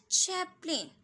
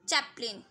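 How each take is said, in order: First: Chaplin with an aspirated छ at the start; correct Chaplin. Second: Chaplin with an unaspirated ch, close to j; low-pitched 'jap-lin' for Chaplin; mispronounced Chaplin. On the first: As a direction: say Chaplin with a puff of air on ch. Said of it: "थोड़ा छ का sound होना चाहिए". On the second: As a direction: say Chaplin wrongly, no puff on the ch. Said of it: "Not this, this is Charlie". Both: Shown as a demonstration.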